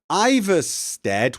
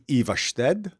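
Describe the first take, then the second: First: The name has an English-style pronunciation. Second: The name has a Scandinavian-style pronunciation. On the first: This is how the game says it. The speaker calls it wrong. "nobody in Skyrim pronounces them correctly" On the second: This is how the name is really said. The speaker calls it right. "would be Ivarstead"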